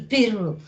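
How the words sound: The word is said with closed i and u vowels. "y pronuncian así, pirru"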